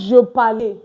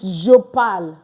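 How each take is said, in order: First: The final e of parle is sounded. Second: The final e of parle is silent. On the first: The speaker calls it wrong. "it's not je parle" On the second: The speaker calls it right. "Because the E here is not pronounced"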